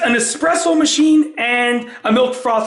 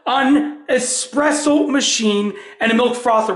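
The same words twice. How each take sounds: First: The phrase is spoken quickly, words run together. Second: The phrase is spoken slowly, words kept apart. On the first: It sounds like the brand name Nespresso. "When I say fast" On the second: It clearly means an espresso machine. "I'll say that again slower"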